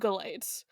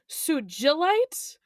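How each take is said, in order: First: The G is hard, as in geese. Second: The G is soft, as in ginger. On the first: This matches the name it comes from. The speaker calls it right. "it's supposed to be" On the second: This is how people commonly say it. The speaker calls it wrong. "people pronounce it"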